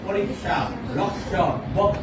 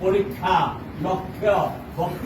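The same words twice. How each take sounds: First: The words are said the Hindi-Sanskrit way. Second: The words are said the Assamese way. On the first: "Hindi সংস্কৃত এইবিলাকত" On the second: "অসমীয়াত আমি কি অৰ্থৰে কওঁ"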